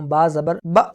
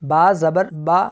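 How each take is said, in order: First: The final vowel is cut short with a jerk. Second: The final vowel has a moderate, even length. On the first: The speaker calls it wrong. "अब ये झटका हो गया" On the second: The speaker calls it right. "इनको झटका नहीं दिया और ना ही मैंने इनको लंबा करके पढ़ा, बल्कि इनकी दरमियानी हालत में पढ़ा है"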